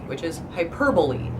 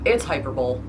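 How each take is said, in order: First: The word is said in its standard pronunciation. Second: The word is read out letter by letter as spelled. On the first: The speaker calls it right. "I try when I say it out loud to say it correctly" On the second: The speaker calls it wrong. "But no"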